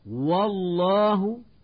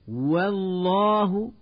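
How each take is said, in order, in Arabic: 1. صوت w في البداية ثقيل. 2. صوت w في البداية خفيف.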